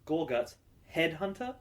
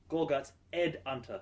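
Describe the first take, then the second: First: The h sound in Headhunter is clearly pronounced. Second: The h sound in Headhunter is dropped. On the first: "if you're speaking proper" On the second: "he says it Gorgut Ed Hunter. Doesn't cuts out the H"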